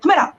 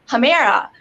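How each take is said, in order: First: The name is compressed to nearly one syllable. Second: The name is said with several distinct syllables. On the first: This is how the family originally says it. "how do your parents say it? I'm like, Humera" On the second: This is the version used with other people. "I like the sound of Humera better, H, like it's Humera. So that's what I tell people"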